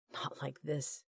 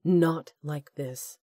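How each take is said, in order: First: Hushed inner cry, held down; a silent scream kept inside the head. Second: Slow, weighted, NOT stressed and falling; slow emphatic plea. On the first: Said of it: "his mind screamed". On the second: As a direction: drag out "Not like this" as a vow. Repeated inner plea. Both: A narrator's reading.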